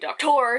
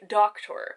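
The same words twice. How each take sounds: First: The stress is on the second syllable. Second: The stress is on the first syllable. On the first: The speaker calls it wrong. "you wouldn't say doctor" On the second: The speaker calls it right. "the word doctor has a stress on the first syllable"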